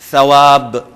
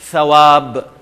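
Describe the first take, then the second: First: The first sound is made with the tongue tip. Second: The first sound is made with the tongue tip.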